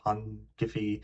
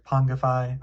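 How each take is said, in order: First: "Pongify" ending in "fee", rhyming with see; alternative pronunciation. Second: "Pongify" ending in "fy", rhyming with eye; alternative pronunciation. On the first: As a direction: say "Pongify" as PON-ghih-fee. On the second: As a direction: say "Pongify" as PON-guh-fye. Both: Shown as a demonstration. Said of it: "not sure how to pronounce it".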